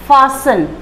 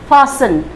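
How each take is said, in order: No difference in how they are said.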